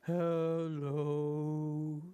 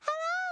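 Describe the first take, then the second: First: It is said in a low voice. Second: It is said in a high voice.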